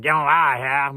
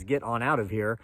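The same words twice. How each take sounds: First: Louder Appalachian Get on out of here, vowels clipped to yeh-on-a-here; Appalachian accent. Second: Said in the usual way. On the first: Shown as a demonstration. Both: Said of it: "'cause I'm from Appalachistan".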